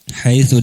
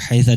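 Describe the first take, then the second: First: The word ends with an u vowel. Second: The word ends with an a vowel. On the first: "dengan dhamma" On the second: "dengan fathah"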